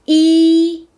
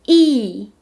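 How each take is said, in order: First: The pitch stays high and level. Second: The pitch falls sharply from high to low.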